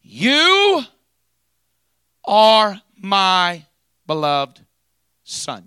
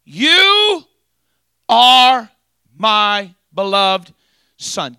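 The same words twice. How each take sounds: First: Very high, loud booming proclamation fading to plain; voice from heaven. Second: Very high, very loud, slow booming call; voice from heaven. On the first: Preacher showing the congregation how heaven speaks, booming. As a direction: start up high and booming, let it settle on Son. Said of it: "says it just like this". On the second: Preacher repeating heaven's voice for the congregation, booming. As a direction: soar up and hold every word. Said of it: "Just like that". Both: Shown as a demonstration.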